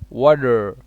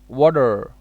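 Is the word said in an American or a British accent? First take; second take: American; American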